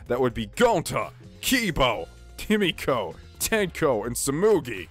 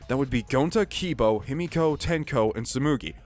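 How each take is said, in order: First: It is voiced in Shuichi's character voice. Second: It is read in a plain, unacted voice.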